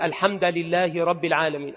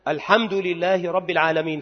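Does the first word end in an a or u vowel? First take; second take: a; u. First: The first word ends in an a vowel. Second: The first word ends in a u vowel. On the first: The speaker calls it wrong. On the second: The speaker calls it right.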